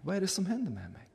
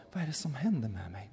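First: Higher, faster, soft panicked voice; Fatima repeats it in rising alarm, higher and quick; frightened repeat. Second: Softer, bewildered murmur; Fatima, just coming round, asks quietly; dazed, quiet. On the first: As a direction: ask again, rising into alarm. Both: Retold or imitated. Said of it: "hon kom tillbaka och sa".

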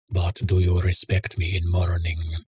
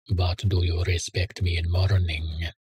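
First: Lightly voiced Russian accent, barely shifted; a hint of Russian accent asking it teasingly. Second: Whispered, teasing, with a grin; grinning whisper. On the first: Homeless man teasing the narrator, faint Russian accent. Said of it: "in his Russian accent". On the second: Homeless man teasing his host, whispered with a grin. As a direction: breathe the question out with a sly grin. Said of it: "he asked with a grin". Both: A narrator's reading.

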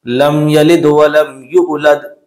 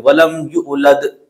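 First: लम यलिद वलम यूलद said evenly and slowly, no jolt; smooth recitation. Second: वलम यूलद with a jolt on वलम; jerky wrong recitation. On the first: Teacher models smooth even recitation for students. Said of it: "झटका नहीं लगाना है". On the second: Teacher shows students the jolt people add. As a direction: imitate the common jerk on वलम. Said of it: "बहुत सारे लोग झटका लगा देते हैं". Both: Shown as a demonstration.

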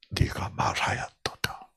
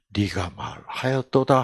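First: Jesus's reply 네가 말하였도다 whispered. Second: Said in the usual way. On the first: Acted. Jesus quietly answers Judas in a whisper. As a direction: hush it to a whisper.

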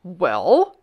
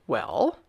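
First: Much louder, rising demand; loud kingly WELL, swooping up at the end; insistent demand. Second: Low, questioning demand; restrained first demand, rising at the end. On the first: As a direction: press hard for an answer. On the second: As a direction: ask it as a king expecting an answer. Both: A narrator's reading. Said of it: "he demanded".

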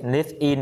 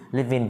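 First: Said in the usual way. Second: "live in" run together as "li-vin"; linked sounds. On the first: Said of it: "đọc nối sang". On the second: Shown as a demonstration. Teacher models linking for students, "live in" joined as one word. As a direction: carry the v of "live" onto "in". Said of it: "đọc nối sang live in".

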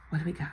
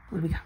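First: Whispered. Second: Said in the usual way. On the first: Real, not acted.

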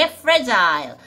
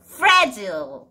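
First: Fragile ending like "mile", drawn out slowly; full-vowel pronunciation. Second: Fragile with the second syllable shrunk to "jul"; alternative reduced pronunciation. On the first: Teacher recalling the parcel label, fragile said as "FRAJ-ile". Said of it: "fragile 이렇게 하기도 하는데요". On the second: Teacher showing another way to say it, fragile as "FRAJ-ul". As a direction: say fragile as FRAJ-ul, no "eye" sound. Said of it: "이렇게 하기도 하는데요". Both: Shown as a demonstration.

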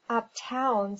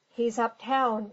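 First: Understated sneer; sneering echo. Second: Said in the usual way. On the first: A narrator's reading. Pinkerton echoing the captain's excuse, lightly sneering. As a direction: throw the words back with mild scorn. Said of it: "sneered Pinkerton". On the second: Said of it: "returned the other".

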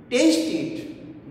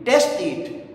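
First: Taste with a full "ay" glide, as in paste; long A in Taste. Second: Taste said with a short e, like "test"; mispronounced as test. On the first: Teacher showing what satisfies the listener, Taste with a long "ay". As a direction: draw the vowel in Taste out to "ay". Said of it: "then he will be satisfied". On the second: Teacher showing students the mistake, Taste said as "test". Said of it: "He will not be satisfied". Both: Shown as a demonstration.

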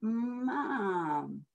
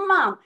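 First: Soft Mom, each sound in time with the finger; letter by letter. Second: Quick loud Mom, sliding past the letters; rushed. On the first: Parent modelling the right way, soft and sound by sound. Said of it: "finger right under the letters". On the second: Active child racing the finger off the page, rushed. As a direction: blurt Mom in one go. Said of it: "goes right off the end of the page". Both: Shown as a demonstration.

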